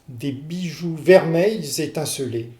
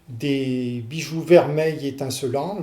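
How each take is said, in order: First: The final S links as a Z sound. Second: The final S is silent before the next word. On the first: The speaker calls it right. "la prononciation correcte" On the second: The speaker calls it wrong. "je ne prononce pas le, le S"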